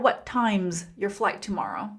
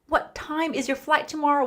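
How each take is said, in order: First: 'Time is' is contracted to sound like 'times'. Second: The word 'is' is said as a separate word.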